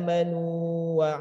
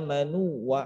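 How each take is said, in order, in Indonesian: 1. Vokal sebelum wa dibaca panjang. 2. Vokal menyatu langsung dengan wa. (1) "nunya dibaca panjang" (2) "jangan sampai diidghamkan"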